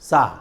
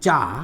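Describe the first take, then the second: First: The word begins with a softer s-like sound. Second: The word begins with a clear ch sound. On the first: The speaker calls it right. "we say sa" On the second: The speaker calls it wrong. "we don't say cha"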